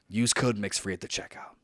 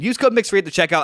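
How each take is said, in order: First: It is said in a calm tone. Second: It is said in an angry tone.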